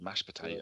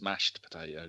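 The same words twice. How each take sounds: First: The first word ends without a 't' sound. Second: The first word ends with a clear 't' sound. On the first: The speaker calls it wrong. "I said mashed potato" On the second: The speaker calls it right. "but it's mashed potato"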